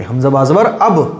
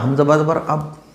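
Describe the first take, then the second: First: The final b is struck firmly with a bounce. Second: The final b stops flat without an echo. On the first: The speaker calls it right. "आवाज़ जमा के" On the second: The speaker calls it wrong. "ऐसे नहीं पढ़ना"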